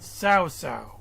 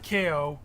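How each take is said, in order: First: The name is said like 'sao sao'. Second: The name is said as a short 'Ko'. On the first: The speaker calls it right. "but Sao Sao" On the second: The speaker calls it wrong. "Not K O"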